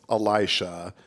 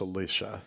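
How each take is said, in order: First: The name is said like Elisha. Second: The name is said like Alicia. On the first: This is the pronunciation the speaker grew up with. "I grew up with Elisha" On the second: This is how many Catholics pronounce it. "I hear a lot of Catholics pronounce it as Alicia"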